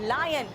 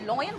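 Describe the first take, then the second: First: The first vowel sounds like 'lie'. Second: The first vowel sounds like 'law'. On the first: The speaker calls it right. "L for लायन" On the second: The speaker calls it wrong. "कुछ लोग लॉयन बोलते हैं, मुझे नहीं समझ में आता क्यों बोलते हैं"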